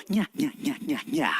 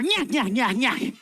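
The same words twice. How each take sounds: First: Soft, low nya nya cackle; quiet witch cackle. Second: A bit louder nya nya cackle; louder witch cackle. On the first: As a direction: cackle softly like a sneaky witch. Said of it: "Everybody, laugh very quietly". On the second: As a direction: let the witch cackle grow. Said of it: "Make it just a little bit louder". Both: Shown as a demonstration.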